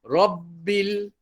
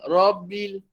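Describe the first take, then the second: First: The doubled b is held before the vowel. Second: The doubled b is cut short. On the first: The speaker calls it right. "rabbil pegang ba tu dulu" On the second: The speaker calls it wrong. "rabbil rabbil dia tak mau ya"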